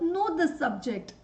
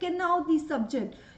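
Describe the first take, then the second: First: The k at the start is silent. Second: The k at the start is sounded. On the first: The speaker calls it right. "So know the subject" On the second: The speaker calls it wrong. "see my pronunciation"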